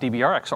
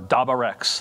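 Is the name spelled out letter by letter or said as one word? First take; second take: letter by letter; one word. First: The name is spelled out letter by letter. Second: The name is said as one blended word.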